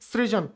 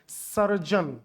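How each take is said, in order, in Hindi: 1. यह शब्द अक्षर 'sri' से शुरू होता है। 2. यह शब्द अक्षर 'sar' से शुरू होता है। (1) "सृजन गलत शब्द है भाई" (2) "ये शुद्ध शब्द है"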